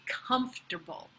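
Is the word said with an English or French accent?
English. The word is said with an English accent. "the pronunciation in English"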